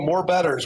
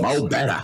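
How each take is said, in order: First: The name is said with full 'more' and final 's'. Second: The name is said as short 'mo' without 's'. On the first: The speaker calls it wrong. "So many people love to start off and say" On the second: The speaker calls it right. "So you guys got it"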